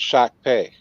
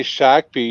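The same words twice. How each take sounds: First: "Shakopee" as SHAK-pay, ending in ay; corrected town name. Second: "Shakopee" as SHAK-pee, ending in ee; mispronounced town name. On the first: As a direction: end "Shakopee" on a pay sound. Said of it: "when they say Shakopee, you say". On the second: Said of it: "No, it's Shakopee". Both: Shown as a demonstration.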